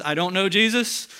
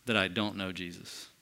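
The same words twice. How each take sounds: First: A raised, higher, insistent denial; mock denial. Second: Low, soft, grave denial; hushed oath. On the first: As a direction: throw out Peter's protest loud and high. Peter's denial acted out. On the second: Retold or imitated. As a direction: let the oath sink low and quiet. Peter's oath retold, sinking.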